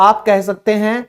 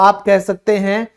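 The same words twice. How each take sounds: The two takes are said the same way.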